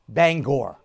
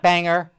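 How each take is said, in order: First: The second syllable is a full 'gore'. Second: The second syllable is a reduced 'ger'. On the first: The speaker calls it right. "You pronounced the name Bangor" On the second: The speaker calls it wrong. "not Banger"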